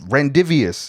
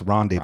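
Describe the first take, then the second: First: It is sounded out letter by letter as spelled. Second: It is said with the silent letters dropped. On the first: The speaker calls it wrong. "you only read a word and then you mispronouncing it" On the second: The speaker calls it right. "no, that's rendezvous"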